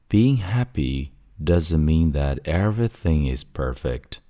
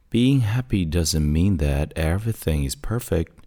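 First: The sentence is read at a slower pace. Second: The sentence is read at a faster pace.

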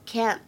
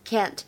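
First: It is said in an American accent. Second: The same.

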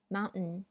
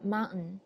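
First: The t in the middle is held back, unreleased. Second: The same.

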